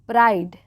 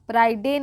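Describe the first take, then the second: First: The word is one syllable ending in d. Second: The word ends with an extra 'de' syllable. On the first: The speaker calls it right. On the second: The speaker calls it wrong.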